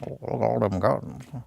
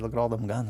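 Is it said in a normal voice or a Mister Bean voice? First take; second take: Mister Bean; normal voice. First: It is said in a Mister Bean voice. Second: It is said in his normal voice.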